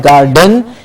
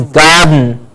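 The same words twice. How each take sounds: First: "garden" with a clear DEN, rising; "garden" as gar-DEN, both vowels full; full final vowel. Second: "garden" ending in a nasal N straight after the D, falling; vowelless nasal ending. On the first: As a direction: sound out the vowel in the last syllable of "garden". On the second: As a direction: drop the last vowel of "garden". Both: Shown as a demonstration. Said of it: "without the vowel sound preceding it".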